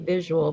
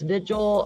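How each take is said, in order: First: The word sounds like 'visual'. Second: The word sounds like 'vigil'. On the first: The speaker calls it wrong. "I always say visual" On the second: The speaker calls it right. "but it's vigil"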